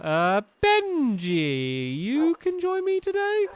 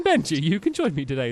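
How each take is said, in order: First: "today" lifted high like a question; drawn-out "Benji", then rising high on "you can join me today"; questioning tune. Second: Said in the usual way. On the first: Real, not acted. Player picking Benji to join, voice rising into a question on "today". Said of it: "saying that like a question". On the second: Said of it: "is what I'm saying".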